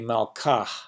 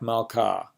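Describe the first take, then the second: First: The word ends with a clearly audible h. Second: The word ends on a vowel with no h. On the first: It means her king. "I kind of overpronounced it there, but you can hear that I'm pronouncing it" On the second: It means queen. "hey at the end of a word without the mapik would be like malka"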